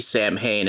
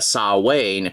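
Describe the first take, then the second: First: It sounds like 'sam hain', with m and h. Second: It sounds like 'sa-wain', with no m or h. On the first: This is the Americanized pronunciation used for the nickname. "I'm guessing it's supposed to be Sam Hain in this context" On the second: This is the traditional Irish pronunciation. "traditionally pronounced uh"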